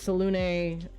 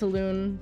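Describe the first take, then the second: First: The final e is pronounced as a syllable. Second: The final e is silent. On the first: The speaker calls it wrong. "Selûne drives me crazy" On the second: The speaker calls it right. "I will always say it's Selûne"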